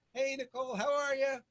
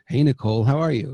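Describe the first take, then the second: First: Distant, thin and much softer, pitched up; weak, off-mic hello from across the room; talking from far back. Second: Loud, lower, intimate right on the microphone; close-up hello, full and present in the ear; up close on mic. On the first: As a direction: call a greeting from well back off the mic. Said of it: "if I'm talking back here". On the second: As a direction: lean right into the mic to greet. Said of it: "if I come close". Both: Shown as a demonstration.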